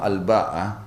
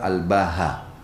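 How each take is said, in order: First: The middle consonant is a glottal stop. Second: The middle consonant is an h sound. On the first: "dengan hamzah dan ta' ta'nits" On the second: "dengan huruf ha sebagai pengganti huruf hamzah"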